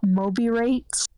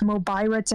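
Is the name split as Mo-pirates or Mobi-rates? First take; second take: Mobi-rates; Mo-pirates. First: It is said as mobi plus rates. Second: It is said as mo plus pirates. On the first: The name suggests mobile texting rates. The speaker calls it wrong. "and not Mobirates" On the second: The name combines a phone and pirates. The speaker calls it right. "it is Mobirates"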